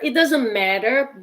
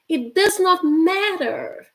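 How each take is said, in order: First: "Does not" is contracted into one syllable. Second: "Does not" is said as two full words. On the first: "You could say it doesn't matter" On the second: "which is it does not matter"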